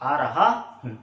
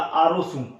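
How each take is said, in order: First: The final word begins with an h sound. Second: The final word begins with an s sound. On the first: "Rajasthan का कोई भी विद्यार्थी बोलता है तो वो ये बोलेगा" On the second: "हरियाणा का कोई छात्र बोलेगा तो वो बोलेगा"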